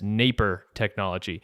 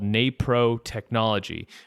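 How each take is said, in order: First: The second syllable is reduced to a weak 'per'. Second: The second syllable is said as a full 'pro'. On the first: The speaker calls it wrong. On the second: The speaker calls it right.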